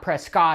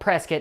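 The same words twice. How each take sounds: First: The name is said the way outsiders say it. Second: The name is said the way locals say it. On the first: This marks the speaker as not from the town. The speaker calls it wrong. "not Prescott" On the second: This is how people from the town say it. The speaker calls it right. "it's actually called Prescott"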